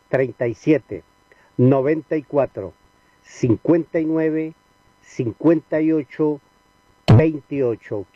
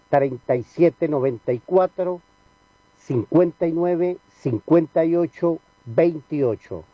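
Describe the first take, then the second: First: The numbers are said slowly. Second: The numbers are said quickly.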